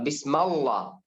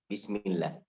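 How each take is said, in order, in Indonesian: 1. Vokalnya 'a' dan 'l' dibaca tebal. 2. Vokalnya 'i' dan 'l' dibaca tipis. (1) "Kalau bisma akan baca tebal" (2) "karena kasrah akan baca bismil"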